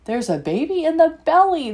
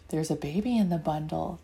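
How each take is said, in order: First: Higher and louder, bursting with news; excited exclamation. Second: Put-on softer and lower, so the baby sleeps; hushed. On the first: Acted. A child telling Mommy about the baby, excited and louder. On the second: Children looking at the sleeping baby, hushed and softer. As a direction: hush it, don't wake her.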